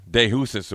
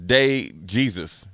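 First: "Jesus" with an H sound, roughly hoo-sus; fumbled Spanish "Jesus", starting with H; attempted Spanish pronunciation. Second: "Jesus" said the English way, JEE-zus; English pronunciation. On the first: Second try at the surname. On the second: Trying out the umpire's surname. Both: Shown as a demonstration.

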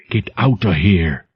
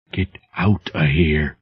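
First: Said in the usual way. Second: Soft unvoiced whisper of terror; trembling whisper. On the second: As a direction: whisper it, shaking with fear. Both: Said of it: "as a trembling whisper".

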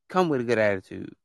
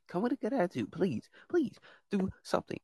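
First: Said in the usual way. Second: "Come with a good attitude" pitched far up and hushed; high, soft pleading. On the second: Real, not acted. Host begging guests, high soft plea. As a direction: beg it sweetly, high and soft.

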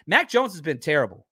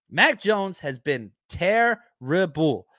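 First: Said in the usual way. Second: Mac Jones has been terrible, slowly, every word leaned on; slow emphatic repeat. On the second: Shown as a demonstration. Host repeating his verdict on Mac Jones, slow and deliberate. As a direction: drag it out to drive the point home.

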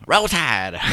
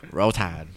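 First: High, loud Southern cheer; Southern accent. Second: Said in the usual way. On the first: Retold or imitated. Coach's Southern cheer, hammed up for the host. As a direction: shout Roll Tide like a Southern fan. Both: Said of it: "in a Southern accent".

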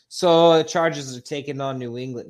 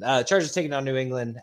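First: Boston accent, louder and punchy. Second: Said in the usual way. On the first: Shown as a demonstration. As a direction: read it like a loud Boston sports fan. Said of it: "you should keep doing the accent". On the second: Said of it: "No, I'm just kidding".

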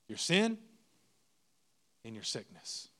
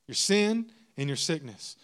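First: Each part set apart, the last dropping much softer; "Your sin" lifted, pause, then "and your sickness" sinking low; spaced out for weight; slow dramatic pauses. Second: Said in the usual way. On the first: Shown as a demonstration.

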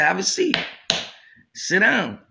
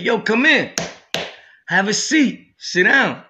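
First: Said in the usual way. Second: A louder, higher call to come in and sit; calling out from afar. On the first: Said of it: "When I got closer, he said". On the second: Retold or imitated. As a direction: beckon him from across the cell. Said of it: "He said".

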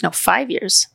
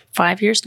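First: "No, five years." settled with a falling tune; "five" firmly stressed, the count decided; confirming. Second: "Five years?" asked with a rising tune; "years" lifted up, unsure of the count; questioning. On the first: Correcting herself about how long at Moore, firm fall. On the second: Correcting herself about how long at Moore, unsure rise. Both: Real, not acted.

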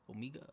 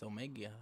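First: Omega with a long E, oh-MEE-guh; long-E pronunciation. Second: Omega with a long A, oh-MAY-guh; long-A pronunciation. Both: Shown as a demonstration. Tries two pronunciations of name.

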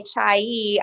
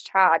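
First: "chai" drawn out as "chai-ee"; other pronunciation. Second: "cha" with an open "ah", no glide; Southern pronunciation. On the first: Imitating how the co-host might say it, "chai-ee". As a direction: stretch "chai" into two syllables. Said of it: "You might say chai". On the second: Answering the co-host her own way, Southern "cha". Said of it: "I'm gonna be like". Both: Shown as a demonstration.

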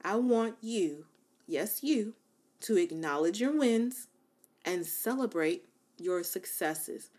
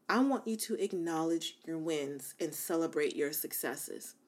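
First: "I want you" said slowly, word by word; "yes, you" pointed, then "celebrate" drawn out; slow emphatic repeat. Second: Said in the usual way. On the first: Shown as a demonstration. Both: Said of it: "I'm gonna say that again".

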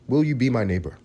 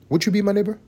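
First: Said in the usual way. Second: Much higher sing-song ask; high childlike invitation; sing-song plea. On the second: Shown as a demonstration. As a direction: coax like a kids' TV host.

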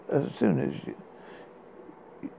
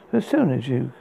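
First: Whisper. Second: Said in the usual way. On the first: Acted. Poem line restarted, whispered.

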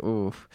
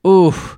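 First: Soft low wince; quiet. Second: Louder higher wince. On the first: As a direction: wince under your breath. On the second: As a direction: punch the second oof out. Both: Retold or imitated. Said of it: "and I'm like".

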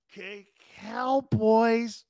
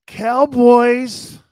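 First: Mocking drawl. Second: Loud call. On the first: Mocking the rival team. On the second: Acted. Reacting to a rival team name.

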